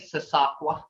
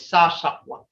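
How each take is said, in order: First: "Sasakwa" with a plain s sound, the English way; wrong English version. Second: "Sa Shakwa" with a sh sound in "Shakwa"; correct Muskogee. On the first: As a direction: say "Sasakwa" the way outsiders say it. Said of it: "It ain't Sasakwa". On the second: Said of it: "It's Sa Shakwa". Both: Shown as a demonstration.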